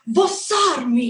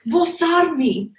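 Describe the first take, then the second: First: It is said forcefully, with more vigor. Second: It is said calmly, without extra force.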